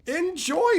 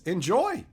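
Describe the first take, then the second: First: Enjoy pitched way up with a sing-song rise; high teasing Enjoy. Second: Said in the usual way. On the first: Shown as a demonstration. Streamer teasing Pat Cash about his two boxes, high sing-song. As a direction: lift Enjoy high and tease.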